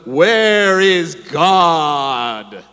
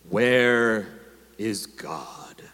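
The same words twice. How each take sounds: First: It is bellowed in a loud, booming voice. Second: It is said sternly at moderate volume.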